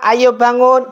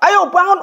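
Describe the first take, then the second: First: It is said softly and lovingly. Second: It is said loudly and harshly. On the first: The child is woken with affection. The speaker calls it right. "Yang penuh dengan kelembutan, penuh kasih sayang" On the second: The child is scolded into waking. The speaker calls it wrong. "Udah nadanya keras"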